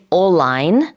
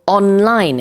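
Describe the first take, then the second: First: The N becomes an L sound. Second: The N is heard before the L. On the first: The speaker calls it wrong. "can't say all-line. That doesn't make sense in English" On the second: The speaker calls it right. "you have to pronounce both"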